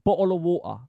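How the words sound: It is said in a British street accent. "the um, street pronunciation"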